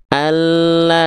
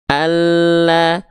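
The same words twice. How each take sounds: No difference in how they are said.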